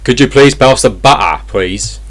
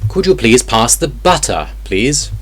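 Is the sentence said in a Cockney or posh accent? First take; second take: Cockney; posh. First: It is said in a Cockney London accent. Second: It is said in a posh British accent.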